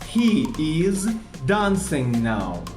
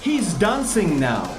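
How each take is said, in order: First: He and is are said as separate words. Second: He and is are joined into one word.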